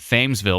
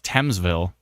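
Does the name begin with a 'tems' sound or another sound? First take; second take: another sound; tems. First: The first part does not sound like 'tems'. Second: The first part sounds like 'tems'. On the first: The speaker calls it wrong. "I want to call it Thamesville" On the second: The speaker calls it right. "turns out it's Thamesville. Even though Thamesville to me would be spelled T E M S"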